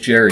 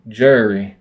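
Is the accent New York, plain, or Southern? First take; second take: plain; Southern. First: It is said in his own plain accent. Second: It is said with a slurred Southern accent.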